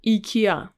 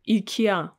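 First: The name is said the Russian way. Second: The name is said the Russian way.

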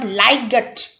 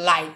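First: The G sound is pronounced. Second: The G sound is silent. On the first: The speaker calls it wrong. "not liget. It's incorrect" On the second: The speaker calls it right. "so it will light"

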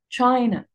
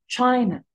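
No difference in how they are said.

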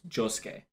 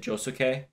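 First: The middle u sound is barely heard. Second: The middle u sound is fully voiced. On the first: The speaker calls it right. "because the U is less pronounced, so it's Josuke" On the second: The speaker calls it wrong. "people get upset with me when I pronounce it Josuke"

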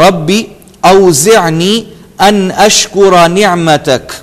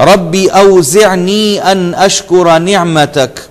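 No difference in how they are said.

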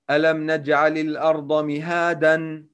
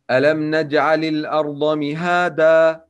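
First: The last word ends in an 'n' sound. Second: The last word ends in a long 'a'. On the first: The speaker calls it wrong. "It's wrong to say" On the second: The speaker calls it right. "When alif comes with tanween in the end of words, so we should pronounce it alif"

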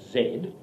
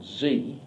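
First: The letter is said the Australian way, 'zed'. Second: The letter is said the American way, 'zee'.

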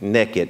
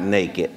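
First: The word is said with a Southern pronunciation. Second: The word is said with a standard pronunciation. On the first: "In the South, we say naked" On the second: "not naked"

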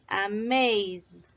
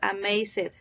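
First: The ending is only a voiced d sound. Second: The ending is said as an extra syllable. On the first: The speaker calls it right. "Se quita la E... únicamente es el sonido. Y este sí vibra, es amazed" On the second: The speaker calls it wrong. "No es amazed. Recuerden que no es una sílaba"

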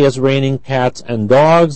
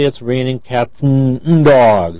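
First: The word 'and' is said in full. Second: The word 'and' is reduced to 'n'. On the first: "they don't say" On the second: "That n is a reduced form"

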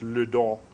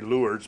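First: The name is said the French way. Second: The name is said the American way. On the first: The speaker calls it right. "but it's Lourdes" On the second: The speaker calls it wrong. "Most of us in America say Lourdes"

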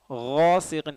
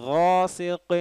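The two takes are said the same way.

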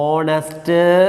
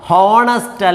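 First: The word begins with a vowel sound. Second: The word begins with an h sound. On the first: The speaker calls it right. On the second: The speaker calls it wrong. "ഹോണസ്റ്റ് അല്ല"

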